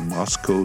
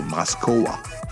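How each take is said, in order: First: The name is said in an English way. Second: The name is said in a Japanese way. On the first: "they don't say Moscow" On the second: "in Japan, they say Moskowa"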